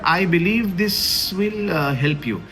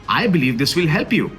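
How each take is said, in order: First: It is said hesitantly, with a filler pause. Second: It is said steadily, without hesitation. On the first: The speaker calls it wrong. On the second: The speaker calls it right.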